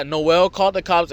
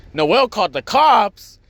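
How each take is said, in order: First: Said in the usual way. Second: Higher, slower mock disbelief; startled brother. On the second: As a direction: echo the news as a stunned question. Brother reacts to the news.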